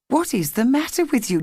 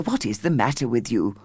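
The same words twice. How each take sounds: First: Higher, concerned mother asking; mother asking her daughter gently, higher; mother's voice. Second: Lower, stern father asking; a hint of an impatient father; father questioning his daughter, lower; father's voice. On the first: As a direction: lift it into a worried mother. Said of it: "said her mother". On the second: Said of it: "said her father". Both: A narrator's reading.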